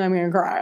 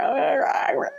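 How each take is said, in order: First: Said in the usual way. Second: "I'm gonna cry" pushed up high and thin, on the edge of tears; "gonna" squeezed up into a high, near-crying whimper; tearful squeak. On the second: Real, not acted. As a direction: let the voice crack up high as the tears come.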